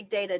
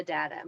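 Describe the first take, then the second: First: Data with the vowel of day; long-a data. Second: Data with the vowel of cat; short-a data. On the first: Answering which way she says it, data as DAY-tuh. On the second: Giving her other version, data as DAT-uh. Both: Shown as a demonstration. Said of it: "It depends on how I".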